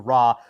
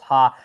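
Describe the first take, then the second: First: The syllable begins with an R sound. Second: The syllable begins with an H sound. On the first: "as opposed to ra" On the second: "in Brazilian Portuguese, R A actually goes ha"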